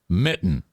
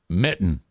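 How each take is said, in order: Both takes have the same delivery.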